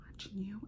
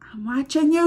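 First: Creepy playful whisper. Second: Said in the usual way. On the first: Pretend. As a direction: breathe it like you're lurking nearby. Playful subscribe reminder.

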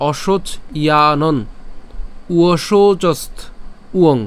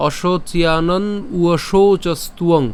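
First: "অশোচ / ইয়ানন / উয়শৌচস্ত / উয়ং" with long gaps; slowly, stopping after each piece; broken into parts. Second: "অশোচিয়ানন উয়শৌচস্তুয়ং" linked in one slow breath; said joined together. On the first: Teacher contrasting the split way, slow separated chunks. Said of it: "আর যদি ভেঙে উচ্চারণ করি". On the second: Teacher repeating the joined way, slow unbroken recitation. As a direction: recite it connected, no gaps between parts. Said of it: "একত্রে যদি উচ্চারণ করি". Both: Shown as a demonstration.

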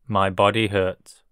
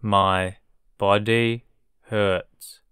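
First: Said in the usual way. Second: My, body hurts at half speed; slow model. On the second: Shown as a demonstration. Teacher modelling a sentence for learners, very slow. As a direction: drag it out for learners. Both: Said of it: "teacher drilling vocabulary".

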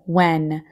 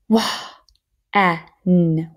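First: Said in the usual way. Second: "Wah", airy with H, then "en" separately; sounded out. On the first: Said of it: "So here we go". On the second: Shown as a demonstration. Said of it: "we can hear the H".

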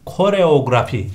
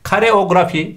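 First: KOREOGRAFI starting ko-; correct pronunciation. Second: KAREOGRAFI starting ka-; common mispronunciation. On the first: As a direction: say koreografi with a clear first o. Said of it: "genelde böyle kullanıyoruz konuşurken ama". (doğru söyleniş, koreografi) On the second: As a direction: say kareografi with a for the first o. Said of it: "genelde böyle kullanıyoruz konuşurken". (yanlış söyleniş, kareografi) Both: Shown as a demonstration.

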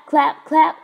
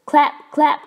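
The two takes are said the same way.

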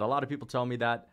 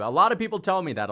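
First: Said in the usual way. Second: Higher, louder, fast and cocky; playful boast. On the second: Acted. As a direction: toss it out like a brag. Repeats chat line twice.

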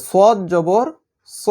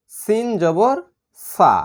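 First: "স" said as a heavy emphatic s with a full mouth; "সদ জবর স" heavy and dark; thick sad. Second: "সা" said as a light, thin s with an open a; "সিন জবর সা" light and thin; thin seen. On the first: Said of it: "সদ হচ্ছে মোটা হরফ". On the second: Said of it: "সিন হচ্ছে পাতলা হরফ". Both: Shown as a demonstration.

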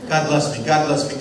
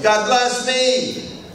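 First: Said in the usual way. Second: High, slow and stretched out; high drawn-out. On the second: Shown as a demonstration. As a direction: draw it out way up high. Joke repeating blessing to self.

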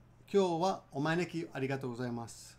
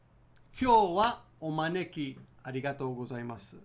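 First: Quicker natural take; natural speed. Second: Slow careful model; slow and clear. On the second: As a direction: say it slowly, syllable by syllable. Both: Shown as a demonstration. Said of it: "Let's do it again".

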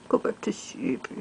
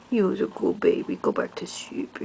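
First: Soft spoken. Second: Hushed whisper to a sleepy pet. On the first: Lulling pet to sleep. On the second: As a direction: whisper softly, lulling. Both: Real, not acted.

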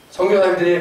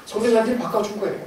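First: Said in the usual way. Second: 선교사님들이 punched high and quick; emphatic answer, 선교사님들이 lifted and stressed. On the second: Shown as a demonstration. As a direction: hit 선교사님들이 hard and higher, then rush the rest. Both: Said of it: "누가 바꿔줘요?".

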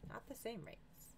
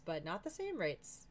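First: Much softer, slow repeat; soft, higher, drawn-out echo; hushed aside. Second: Said in the usual way. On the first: Real, not acted. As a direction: trail it under your breath, slowly.

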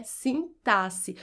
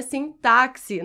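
First: "sintaxe" with a plain s, no k; correct pronunciation. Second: "sintaxe" with a ks sound; wrong pronunciation quoted. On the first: Shown as a demonstration. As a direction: say "sintaxe" as "sin-TA-si". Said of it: "o correto é". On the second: Retold or imitated. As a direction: say "sintaxe" as "sin-TAK-si". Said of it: "a gente faz esse som de K S".

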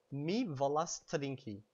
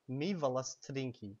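First: Slow careful model answer. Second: Said in the usual way. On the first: Shown as a demonstration. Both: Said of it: "how would you say, "I want to drink"?".

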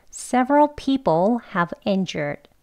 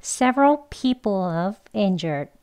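First: Several people have injured with a full have; each word distinct, H in have sounded; careful full form. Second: Several people of injured slowly, have reduced to "of"; unhurried, linking people and of; slow weak form. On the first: Teacher modelling the second example, careful and word by word. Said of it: "그러면 대화 발음입니다". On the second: Teacher practising the conversational sentence, slowly. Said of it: "천천히 해볼게요". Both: Shown as a demonstration.

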